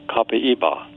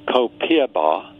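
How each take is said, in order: First: It is pronounced the Brazilian way. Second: It is pronounced the American way. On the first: "the Brazilian pronunciation is" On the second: "many Americans are pronouncing"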